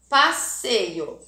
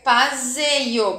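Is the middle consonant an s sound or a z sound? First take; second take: s; z. First: The middle consonant is a hissing s sound. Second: The middle consonant is a buzzing z sound. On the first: The speaker calls it right. "tudo tem que ter dois S's" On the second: The speaker calls it wrong. "eu ia ler passeio... tem sonzinho de Z"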